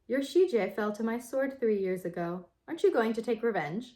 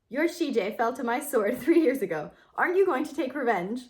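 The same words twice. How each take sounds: First: It is read in a non-sassy character voice. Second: It is read in a sassy character voice. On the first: It is spoken as a different character. The speaker calls it wrong. "I did the wrong voice" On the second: It is spoken as the intended character. The speaker calls it right. "Let me do the Fu Wenxing voice. I've made her sassy"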